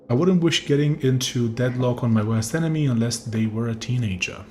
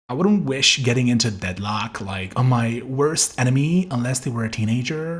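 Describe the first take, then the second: First: It is read in a plain neutral voice. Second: It is read in an LA girl accent.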